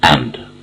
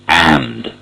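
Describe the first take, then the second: First: The word has a short, unstressed vowel. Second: The word has a long, stressed vowel. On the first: "without any emphasis, without any stress" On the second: "When it is emphasized, it's a long vowel"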